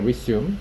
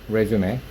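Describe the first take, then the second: First: It is pronounced in the English style. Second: It is pronounced in the French style. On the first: To start again after a pause. "영어식으로 읽으면 resume이 되거든요" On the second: A document listing one's work history. "불어식으로 읽은 건데 이거는 이력서라고 해석하고요"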